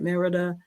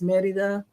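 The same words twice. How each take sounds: First: It is said with an English-style pronunciation. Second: It is said with a Spanish pronunciation. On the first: The speaker calls it wrong. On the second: The speaker calls it right.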